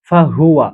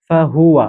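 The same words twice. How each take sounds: The two takes are said the same way.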